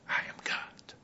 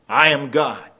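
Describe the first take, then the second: First: It is said in a soft whisper. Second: It is said in a loud, booming voice. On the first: "Sometimes God whispers" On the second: "Sometimes he declares with a reverberating voice"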